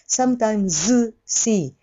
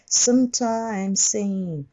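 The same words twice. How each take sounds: First: The z and s are pronounced as separate sounds. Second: The final z merges into the following s. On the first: The speaker calls it wrong. "無理やり…二つに消して分けてはいけない" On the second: The speaker calls it right. "sometimes の図は後ろのseems に吸収されます"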